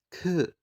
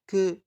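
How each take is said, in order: First: The consonant is released with a strong puff of air. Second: The consonant is released with no puff of air. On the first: "Udara yang dihembuskan itu jauh lebih banyak ya" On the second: "udara yang dihembuskan itu tidak ada sama sekali ya. Jadi huruf kering ya"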